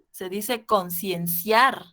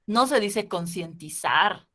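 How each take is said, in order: First: "concienciar" said slowly and firmly, falling at the end; slow, deliberate "concienciar" with a falling close; correct form named. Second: "concientizar" said slowly as the wrong form; slow, marking "concientizar" as the incorrect word; wrong form named. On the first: ("concienciar" lento y firme) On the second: (no se dice "concientizar", despacio) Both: Shown as a demonstration.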